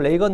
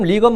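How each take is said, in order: First: The first vowel sounds like 'ay'. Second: The first vowel sounds like 'ee'. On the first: This is the form he asked to be called by. "나를 레이건으로 불러달라" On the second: This is the form he asked reporters not to use. "리건으로 부르지 말고"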